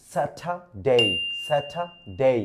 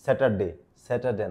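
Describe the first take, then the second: First: "স্যাটারডে" as "SA-tha... DAY", no R, long gliding "ডে"; correct English pronunciation. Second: "স্যাটারডে" with sounded R and short "de"; common mispronunciation. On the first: Teacher modelling "স্যাটারডে" for learners, carefully pronounced "satha-day" without R. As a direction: break "স্যাটারডে" before a drawn-out "day". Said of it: "ইংরেজিতে সঠিকভাবে আপনাদের আজ শিখিয়ে দেই". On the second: Teacher quoting what we usually say, "স্যাটারডে" mispronounced with R and short "de". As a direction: say "স্যাটারডে" low and casual, ending in a short "ডে". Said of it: "আমরা বলি".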